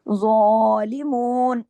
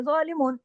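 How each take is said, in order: First: ज़ालिमून with a heavy ज़ and a long drawn आ; ज़ालिमून recited slowly with a full alif length; long vowel. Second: ज़ालिमून said quickly with a clipped vowel; ज़ालिमून said short, the wrong way. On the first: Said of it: "इतना खींच के पढ़ना है". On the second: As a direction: rush ज़ालिमून without holding the alif. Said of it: "ज़ालिमून ऐसे कर देंगे". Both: Shown as a demonstration.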